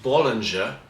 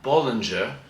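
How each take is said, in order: First: It is pronounced the English way. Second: The same.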